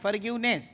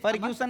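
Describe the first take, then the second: First: The word ends with a 'ness' sound. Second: The word ends with a 'sun' sound. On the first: The speaker calls it right. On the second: The speaker calls it wrong. "फॉरगिव्हसन नाही"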